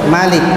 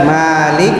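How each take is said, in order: First: The first vowel is kept short. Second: The first vowel is drawn out long. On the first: "dibaca pen" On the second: "dibaca panjang"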